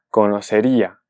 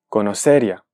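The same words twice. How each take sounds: First: The i is a full vowel, its own syllable. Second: The i glides into the a as one syllable. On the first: "se transforma en una vocal plena" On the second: "si no le ponemos la tilde en la I"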